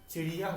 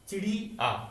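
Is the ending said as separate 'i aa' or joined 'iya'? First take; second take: joined; separate. First: The ending is joined smoothly as 'iya'. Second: The ending is split into separate 'i' and 'aa'. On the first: The speaker calls it right. "चिड़िया होता है" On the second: The speaker calls it wrong. "चिड़ी आ नहीं होता है"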